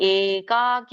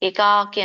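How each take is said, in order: First: The first vowel is drawn out long. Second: The first vowel is said short. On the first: The speaker calls it right. "ಏಕಾಕಿ ಎಳಿಬೇಕು" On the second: The speaker calls it wrong. "ಏಕಾಕಿ ಅನ್ನಂಗಿಲ್ಲ"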